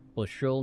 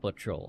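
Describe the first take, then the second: First: The middle consonant is an 'sh' sound. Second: The middle consonant is a 'ch' sound. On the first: The speaker calls it right. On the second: The speaker calls it wrong. "not butchel. I don't know what a butchel is"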